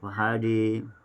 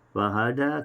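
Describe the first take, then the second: First: The final vowel is tilted toward i. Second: The final vowel is an open a.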